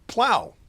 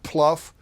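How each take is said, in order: First: The word rhymes with cow. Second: The word rhymes with tough. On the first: The speaker calls it right. "but plow" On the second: The speaker calls it wrong. "Not pluff"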